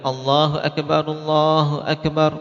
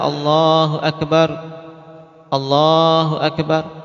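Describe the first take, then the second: First: The two takbirs are joined without a pause. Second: The two takbirs are split apart with a pause. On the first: The speaker calls it right. "Dua-dua digandeng" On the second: The speaker calls it wrong. "Tidak dipisah-pisah, tidak dibaca"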